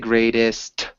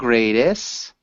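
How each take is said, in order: First: The final t sound is clearly pronounced. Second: The final t sound is left off. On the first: The speaker calls it right. "We need to say greatest" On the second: The speaker calls it wrong. "You're saying greatest"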